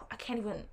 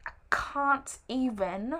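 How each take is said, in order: First: Said in the usual way. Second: Slow, drawn-out British "can't"; British accent. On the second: Pretend. Vlogger at a loss over prednisone, playful British accent. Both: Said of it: "I'm sorry, I do a British accent".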